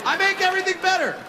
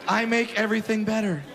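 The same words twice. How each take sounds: First: High, fast proud proclamation; proud catchphrase. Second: Said in the usual way. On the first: Acted. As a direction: sell the catchphrase big. Catchphrase punchline.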